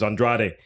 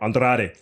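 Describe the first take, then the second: First: It is said plainly, without an accent. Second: It is said with a put-on accent.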